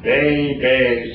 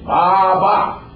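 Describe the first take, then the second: First: The first vowel sounds like 'ay'. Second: The first vowel sounds like 'ah'. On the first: The speaker calls it wrong. "it is not baby something" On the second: The speaker calls it right. "It is Baba. That is A"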